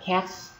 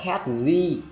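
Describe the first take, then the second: First: The word ends with a voiceless s sound. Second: The word ends with a voiced z sound. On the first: The speaker calls it right. "sẽ là âm SC, được chưa? Là cats" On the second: The speaker calls it wrong. "Chứ không phải là cats z"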